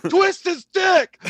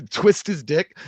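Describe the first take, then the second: First: Very high, stretched-out heckler yell; drunken yelling. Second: Said in the usual way. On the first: Retold or imitated. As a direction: holler it slowly like a drunk fight fan. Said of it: "He's yelling at the octagon". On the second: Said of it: "type in".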